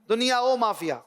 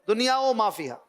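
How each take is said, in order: Both takes have the same delivery.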